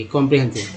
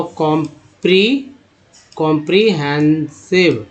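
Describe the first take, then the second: First: Said in the usual way. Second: "comprehensive" broken into slow syllables with pauses; slow syllable demo. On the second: Shown as a demonstration. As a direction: sound out "comprehensive" piece by piece. शब्द धीरे तोड़कर पढ़ाना. ("Comprehensive" रुक-रुककर, धीरे)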